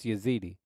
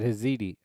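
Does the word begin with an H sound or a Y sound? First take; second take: Y sound; H sound. First: The word begins with a Y sound. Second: The word begins with an H sound. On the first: The speaker calls it right. "It's Yazidi" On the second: The speaker calls it wrong. "I said it the wrong way. I pronounced it with an H"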